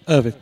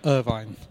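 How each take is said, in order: First: The last syllable has a short vowel, like 'vin'. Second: The last syllable has a long vowel, like 'vine'. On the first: The speaker calls it right. "It's a silent E" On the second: The speaker calls it wrong. "not a magic E"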